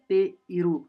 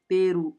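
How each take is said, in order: First: The 'i' after 'te' is fully pronounced. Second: The 'i' after 'te' is left out. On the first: This is the full form for writing and exams. "लिखा हुआ है writing and exams में हमको ई लगाना है" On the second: This is the casual spoken form. "कैजुअल में बोलने में हम डायरेक्ट ... ई को स्किप कर देंगे"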